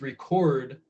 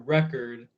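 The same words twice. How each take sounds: First: The stress is on the second syllable. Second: The stress is on the first syllable. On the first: It names the act of recording something. "If you're putting the emphasis on the second syllable" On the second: It names a disc. "if you're holding the syllable longer, if you're saying it a little bit louder"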